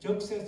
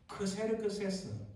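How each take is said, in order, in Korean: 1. 이 이름은 영어식으로 Jeokseseu라고 발음합니다. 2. 이 이름은 그리스식으로 Kserkseseu라고 발음합니다. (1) "영어 발음" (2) "우리가 흔히"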